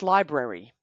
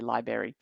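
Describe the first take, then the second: First: The word is said with its second R sound. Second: The word is said without its second R sound. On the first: The speaker calls it right. "The word is library, right? There's an, another R in there" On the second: The speaker calls it wrong. "Maybe you say library"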